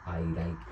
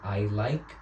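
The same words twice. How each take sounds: First: The L is made with a changed articulation. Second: The L is made normally behind the teeth. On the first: The speaker calls it wrong. "ellos dirían I like" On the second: The speaker calls it right. "en lugar de decir I like"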